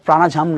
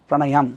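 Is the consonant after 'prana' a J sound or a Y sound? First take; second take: J sound; Y sound. First: The consonant after 'prana' is a J sound. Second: The consonant after 'prana' is a Y sound. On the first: The speaker calls it wrong. "এটা প্রাণাঝাম না" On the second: The speaker calls it right. "আবার প্রাণায়াম"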